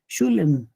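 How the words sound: It is said with the Ashkenazi pronunciation. It avoids saying the holy word itself. The speaker calls it right. "sería mejor como ellos lo pronuncian"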